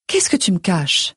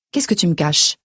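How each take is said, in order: First: Lightly voiced mother pressing for the truth; probing mother. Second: Understated accusing daughter's question; biting tone. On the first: Mother presses daughter for secret. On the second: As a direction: turn it back on your mother with a restrained edge. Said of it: "mon ton se fait mordant". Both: A narrator's reading.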